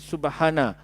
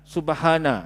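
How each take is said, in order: First: The vowel after the h is cut short. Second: The same.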